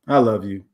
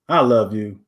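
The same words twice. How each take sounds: First: It is said flatly, with no feeling. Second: It is said warmly, with real feeling. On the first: The words carry no real intention. The speaker calls it wrong. "with no intention behind it" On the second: The speaker truly cares about the listener. The speaker calls it right. "if I'm with someone that I really care about"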